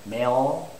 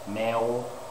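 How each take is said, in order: First: The word ends with a clear L sound. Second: The word ends with a W-like sound. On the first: The speaker calls it right. "that's right" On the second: The speaker calls it wrong. "no, uh-uh, that's wrong"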